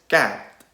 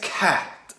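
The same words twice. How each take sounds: First: The c has no puff of air. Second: The c is followed by a puff of air. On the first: The speaker calls it wrong. "non est" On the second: The speaker calls it right.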